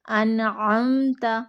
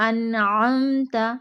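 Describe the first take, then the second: No difference in how they are said.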